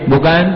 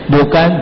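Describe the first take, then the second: No difference in how they are said.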